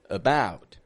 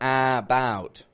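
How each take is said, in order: First: The first vowel is a reduced schwa. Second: The first vowel is a full vowel. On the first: The speaker calls it right. "It's the A in the beginning" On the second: The speaker calls it wrong. "I'm not saying about"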